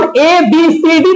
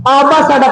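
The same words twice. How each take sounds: First: Said in the usual way. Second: Letters sounded out as "आ बा सा डा"; "आ बा सा डा" in place of the letter names; phonic alphabet. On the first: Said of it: "ए बी सी डी ना पढ़ करके". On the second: Shown as a demonstration. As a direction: read A B C D by sound, "आ बा सा डा". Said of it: "आ बा सा डा पढ़ लो".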